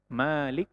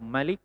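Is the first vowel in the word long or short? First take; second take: long; short. First: The vowel after the m is drawn out long. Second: The vowel after the m is kept short. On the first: It means ruler. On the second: It means king.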